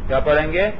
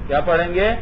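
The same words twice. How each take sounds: Both takes have the same delivery.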